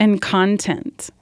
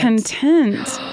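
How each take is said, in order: First: "content" said CON-tent, the first syllable stressed and drawn out slowly; "content" as CON-tent, meaning material, said slowly. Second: "Content" said con-TENT, the second syllable stressed; "Content" as con-TENT, meaning satisfied. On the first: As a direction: say "content" as the noun, with the weight on CON. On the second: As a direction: say "Content" as the adjective, with the weight on TENT. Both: Shown as a demonstration. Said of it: "You just say it differently".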